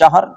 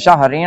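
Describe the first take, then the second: First: The word ends on a bare 'r' sound. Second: The word ends with the syllable 'rin'. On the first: The reciter pauses at this point. "وقف کریں گے تو شہر پڑھیں گے" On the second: The reciter continues without pausing. "وقف نہیں کریں گے تو شہرین پڑھیں گے"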